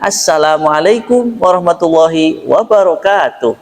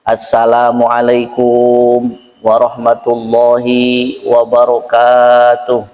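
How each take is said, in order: First: The tune rises and falls like a speech. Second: The tune stays level and flat throughout.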